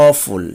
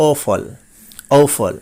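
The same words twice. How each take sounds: First: অফুল as "aw-FUL", with u; common mispronunciation. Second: অফল as "OH-fol", falling; correct pronunciation. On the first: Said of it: "অ দিয়ে বলে থাকি". (অ দিয়ে প্রচলিত উচ্চারণ "অফুল") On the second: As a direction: start অফল with "o" and end in "fol". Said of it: "but এটির সঠিক উচ্চারণ হবে". (অফল-এর সঠিক উচ্চারণ "ওফল") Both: Shown as a demonstration.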